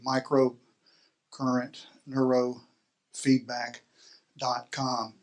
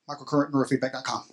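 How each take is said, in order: First: It is said slowly. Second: It is said at a normal speed.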